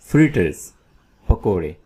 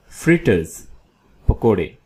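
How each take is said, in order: Both takes have the same delivery.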